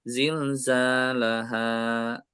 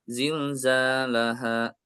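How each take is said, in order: First: The final vowel is held a moderate length. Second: The final vowel is held only briefly. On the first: The speaker calls it right. "Harusnya zilzalaha" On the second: The speaker calls it wrong. "itu baru satu harokat"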